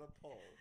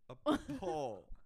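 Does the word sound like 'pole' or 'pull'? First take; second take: pull; pole. First: The vowel is short, sounding like pull. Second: The vowel is a long 'o' as in pole. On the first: The speaker calls it wrong. "Not a poll" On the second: The speaker calls it right.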